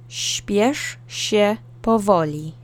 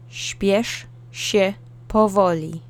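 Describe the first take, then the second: Both takes have the same delivery.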